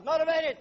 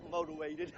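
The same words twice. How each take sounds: First: Motivated punched higher and louder; stress on Motivated. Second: Said in the usual way. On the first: Shown as a demonstration. Speaker rousing the crowd, Motivated shouted high and loud. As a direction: hit Motivated hard and high.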